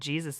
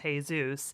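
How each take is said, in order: First: The name begins with an English J sound. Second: The name begins with a breathy H sound. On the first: The speaker did not know the local pronunciation. The speaker calls it wrong. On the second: This is how the name was meant to be said. The speaker calls it right.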